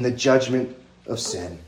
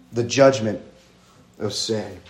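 First: Said in the usual way. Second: "The judgment", a pause, then "of sin" much softer; slow weighty repeat. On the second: Shown as a demonstration. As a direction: let it land with a pause before "of sin".

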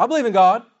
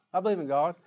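First: Louder, higher, offended I believe; defensive insistence. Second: Said in the usual way. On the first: Retold or imitated. Churchgoer defending his faith when questioned, loud and offended. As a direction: bristle and insist you believe.

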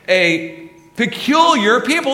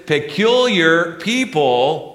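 First: "peculiar" stretched slow and loud, pitched high on the rise; stress on peculiar. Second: "peculiar" drawn out slowly with a high rising lift; stress on peculiar. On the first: Pastor repeating the key word to the congregation, with a slow loud stressed "peculiar". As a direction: hammer "peculiar" slowly at the top of the voice. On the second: Pastor underlining scripture's key word for the church, with a slow stressed "peculiar". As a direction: lean long and high into "peculiar". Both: Shown as a demonstration. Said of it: "I'm gonna emphasize some words".

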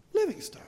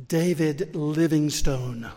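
First: High whispered repeat; high breathy whisper of the name; guide's reply. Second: Slow and clear. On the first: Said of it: "she said". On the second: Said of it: "I thought maybe it was my southern accent". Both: Retold or imitated.

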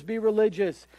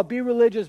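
First: Softer echo. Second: Pushy command. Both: Retold or imitated. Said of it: "they're telling you".

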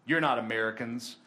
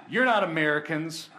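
First: Low, level statement of suspicion; retold intimidating soldier. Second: Louder, lifted proclamation; retold emphatic declaration. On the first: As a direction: lightly voice a suspicious border guard. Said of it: "they get a little scared". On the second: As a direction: declare it boldly as the retold soldier. Soldier's verdict after reading the verse.

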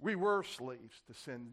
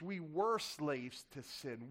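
First: Said in the usual way. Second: Slow, leaning hard on "were"; stress on WERE. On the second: Shown as a demonstration. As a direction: stretch out "were" to make the point. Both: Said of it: "That's the emphasis".

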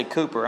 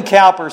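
First: Cooper with the oo of coo, COO-per; Cowper said coo-per. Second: Cowper with the ow of cow, COW-per. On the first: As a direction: say Cooper as coo-per, first syllable rhymes with who. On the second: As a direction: say Cowper as cow-per, first syllable rhymes with how. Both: Shown as a demonstration. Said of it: "that's really the right pronunciation".

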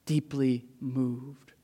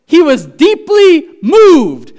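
First: Much softer and lower, words drawn out; hushed and slow. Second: High, loud and slow, every word stretched; thundering proclamation. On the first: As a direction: let the words sink in quietly. Hushed repeat of the earlier cry. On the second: Loud preaching on Jesus' anger. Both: Acted.

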